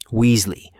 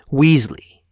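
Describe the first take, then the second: First: Loud, stern call across the corridor; shouting a name. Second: Louder and higher, glass-shattering yell; piercing shout. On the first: Teacher calling out pupils in the corridor, loud. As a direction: bark the name to stop them. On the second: Teacher repeating the name even louder, piercing shout. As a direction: let the second call crack through the hall. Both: A narrator's reading. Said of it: "McGonagall's voice could have shattered glass".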